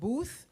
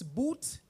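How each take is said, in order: First: The name ends with a th sound. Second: The name ends with a plain t sound. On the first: This is the family's own pronunciation. The speaker calls it right. "instead of Booth" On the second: This is how others often mispronounce the name. The speaker calls it wrong. "he often gets Boot instead of Booth"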